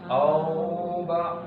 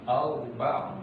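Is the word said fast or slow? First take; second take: slow; fast. First: The word is said slowly, vowel drawn out. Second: The word is said quickly, vowel not stretched. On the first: The speaker calls it wrong. "nggak boleh dibaca seperti itu" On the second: The speaker calls it right. "Ini dibaca cepat nih"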